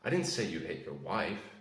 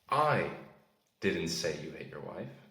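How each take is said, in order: First: The word 'wife' carries the stress. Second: The word 'I' carries the stress. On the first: Someone else was hit. "That implies that you hit someone else" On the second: Someone else said it. "That implies that I didn't say it, but someone did"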